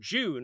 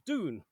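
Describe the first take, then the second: First: The word begins with a J-like sound. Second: The word begins with a plain D sound. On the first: The speaker calls it right. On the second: The speaker calls it wrong.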